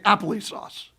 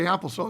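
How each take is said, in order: First: It is said with an added 'ee' after apple. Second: It is said as plain applesauce, no extra syllable. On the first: "he'd say appley sauce" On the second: "wouldn't say applesauce"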